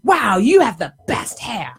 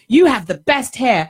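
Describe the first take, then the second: First: It is said in an exaggerated, gushing way. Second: It is said in a plain, toned-down way.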